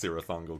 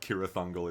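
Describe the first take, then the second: First: The name begins with a soft S sound. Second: The name begins with a hard K sound. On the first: The speaker calls it right. "because it sounds cooler" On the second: The speaker calls it wrong. "it's not"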